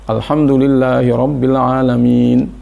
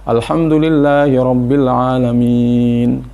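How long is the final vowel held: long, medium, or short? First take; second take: short; medium. First: The vowel before the last sound is held two beats. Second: The vowel before the last sound is held four beats. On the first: "Boleh dibaca dua, ... itu dua saja" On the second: "Atau empat, ... empat"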